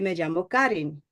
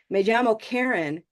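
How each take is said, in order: First: The name is said with Spanish sounds. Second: The name is said with English sounds. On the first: The name fits the sounds of Spanish. The speaker calls it right. "in Spanish, I say" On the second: The name sounds foreign to Spanish speakers. The speaker calls it wrong. "the sounds are not mapping on to Spanish"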